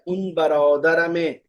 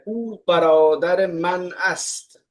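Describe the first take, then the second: First: The words are run together into a shortened form. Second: Every word is pronounced separately and in full. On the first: This is the casual spoken form. "जब इन फॉर्म वे में बोला जाता है तो देखिए क्या बनता है" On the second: This is the formal full sentence. "Actual में सेंटेंस क्या है?"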